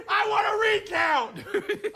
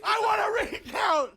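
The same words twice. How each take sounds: First: Laughing demand. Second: High, loud, insistent repeat; a shouted recount demand; firm demand. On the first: Joking demand after lost bet. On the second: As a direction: demand it as if it's final. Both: Real, not acted.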